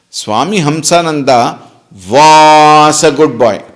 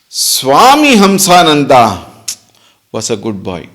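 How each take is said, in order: First: The stress falls on the word was. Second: The stress falls on the name Swami Hamsananda. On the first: "Meaning now he is not" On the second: "Now where is the focus? Swami Hamsananda"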